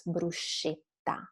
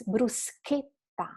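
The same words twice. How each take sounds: First: Bruschetta said as "broo-SHET-ta"; soft SH, wrong. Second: Bruschetta said slowly as "broo-SKET-ta"; hard K and held TT in bruschetta. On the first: Teacher shows students the mistake, bruschetta with SH. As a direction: use an English sh in bruschetta. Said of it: "you can't pronounce bruschetta". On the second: Teacher corrects students, bruschetta with hard SK. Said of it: "the sound has to be hard". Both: Shown as a demonstration.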